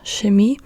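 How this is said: The word begins with an sh sound. This is how northern Germans often say it. "in the north of Germany, you hear Chemie quite often, like sh"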